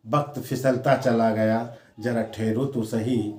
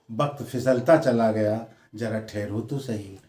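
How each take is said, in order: Both takes have the same delivery.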